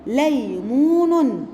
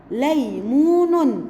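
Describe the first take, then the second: First: ليمون stretched slowly, each syllable drawn out; spelled out ليمون; slow syllable reading. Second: ليمون still slow but joined; ليمون said whole; slow reading. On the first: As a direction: read ليمون very slowly for children. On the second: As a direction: read ليمون slowly as one word. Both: Shown as a demonstration. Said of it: "تعالوا نشوف ده في كلمات".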